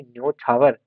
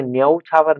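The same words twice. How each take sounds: First: न्योछावर with a plain o; correct o vowel. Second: न्यौछावर with a stretched au; wrong au vowel. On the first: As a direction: say न्योछावर with o, not au. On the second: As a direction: draw out the au in न्यौछावर as the mistake. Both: Shown as a demonstration. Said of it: "न्यौछावर नहीं".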